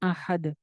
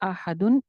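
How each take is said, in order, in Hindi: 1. शब्द बिना स्वर-मात्रा के अचानक खत्म हो जाता है। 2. शब्द अपनी पूरी स्वर-मात्रा के साथ खत्म होता है।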